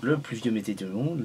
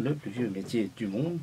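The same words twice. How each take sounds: First: Stumbling over "le plus vieux métier du monde"; bafouillage. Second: Said in the usual way. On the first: Real, not acted. (« le plus vieux métier du monde » bafouillé) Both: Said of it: "pardon, je bafouille".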